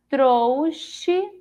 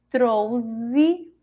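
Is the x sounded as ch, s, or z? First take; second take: ch; z. First: The x is sounded as sh. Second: The x is sounded as a z. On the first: "Com o som de C H" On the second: "Se fosse com o som de Z"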